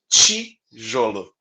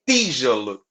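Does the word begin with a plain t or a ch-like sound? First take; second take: ch-like; plain t. First: The first consonant sounds like ch. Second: The first consonant is a plain t. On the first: This is how it is said in inland São Paulo. "eu falo tijolo desse jeito" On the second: This is how it is said in the Northeast and South. "puro foneticamente dizendo, ele é esse t"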